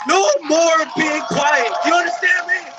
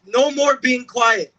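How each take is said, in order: First: Furious shout. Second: Louder, higher and slow, each word pressed; slow defiant shout. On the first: Speaker rallies listeners at the peak, furious shout. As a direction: let it explode at full voice. Rally cry, repeated climax. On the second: Speaker rallies listeners against staying silent, slow shout. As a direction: hammer out the vow to the crowd. Rally cry, repeated louder. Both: Real, not acted.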